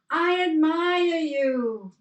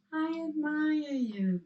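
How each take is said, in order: First: High, loud, slow call of "I admire you"; father calling into the valley. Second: A high echo of "I admire you" at normal level; the mountain echo answering. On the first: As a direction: shout the praise out across the mountains. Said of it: "Watch this". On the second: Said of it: "came back". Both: Retold or imitated.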